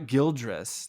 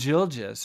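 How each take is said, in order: First: The name is said with an r sound. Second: The name is said without an r sound. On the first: The speaker calls it wrong. "It's not Gildris" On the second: The speaker calls it right. "There's no R in, in Gilgis"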